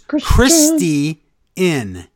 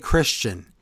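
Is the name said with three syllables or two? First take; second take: three; two. First: It is said as three syllables, Chris-tee-in. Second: It is said as two syllables, Chris-chun. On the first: "He says Christy Inn"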